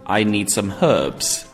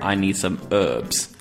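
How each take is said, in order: First: It is said with a British accent. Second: It is said with an American accent.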